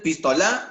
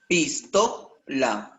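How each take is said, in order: First: The stress falls away from the middle syllable. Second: The stress falls on the middle syllable. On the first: The speaker calls it wrong. "Tú no dices pistola" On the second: The speaker calls it right.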